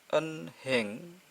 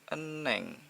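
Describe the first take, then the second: First: An h sound is heard in the middle. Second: No h sound is heard in the middle. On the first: The speaker calls it wrong. "Jadi bukan dibaca enheng" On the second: The speaker calls it right. "tapi eneng"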